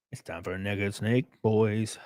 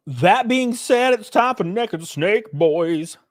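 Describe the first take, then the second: First: Low murmur. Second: Hype announcer. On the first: Repeated low and soft. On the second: Hyped segment announcement. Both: Acted.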